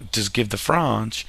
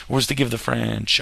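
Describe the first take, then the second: First: "French" drawn out as "Frahnsh", mock French; playful faux-French "Frahnsh"; mock French accent. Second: Said in the usual way. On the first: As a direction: put on a slow, joking French accent for "French". Jokey French pronunciation, then corrected.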